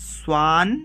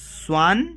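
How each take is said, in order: Both takes have the same delivery.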